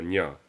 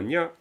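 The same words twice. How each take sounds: First: The word is said with a low tone. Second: The word is said with a high tone. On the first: The speaker calls it right. "un poisson, c'est un nya ... un son bas" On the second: The speaker calls it wrong. "C'est pas un nya"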